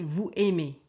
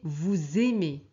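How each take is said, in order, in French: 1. Le s est muet, il n'y a pas de liaison en z. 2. Le s se lie à « aimez » avec le son z. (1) "C'est faux" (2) "S et A, on prononce Z"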